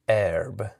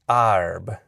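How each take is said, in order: First: The vowel is a short e before r. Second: The vowel is an open ah before r. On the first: It is a conservative, careful style. "retained that short e plus r sound, um, and in a more conservative, careful style pronunciation" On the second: It is a lower middle class style. "pronouncing those those air sounds like ar"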